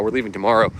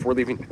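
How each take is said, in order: First: Said in the usual way. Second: Interrupted by a hiccup. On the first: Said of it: "excuse me, we got the hiccups now". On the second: Real, not acted. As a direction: hiccup breaking the words. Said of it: "we got the hiccups now".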